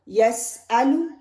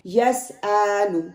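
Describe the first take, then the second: First: The vowels are kept short and unstretched. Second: The vowels are stretched and drawn out. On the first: The speaker calls it right. "नो" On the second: The speaker calls it wrong. "Naturally उसको खींच लेते हैं ऐसे"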